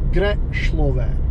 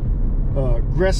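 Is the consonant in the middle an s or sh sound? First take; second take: sh; s. First: The middle consonant is a sh sound. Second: The middle consonant is a plain s sound. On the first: The speaker calls it right. "because there's a line above the S, that's a sh sound" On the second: The speaker calls it wrong. "it was Greslove"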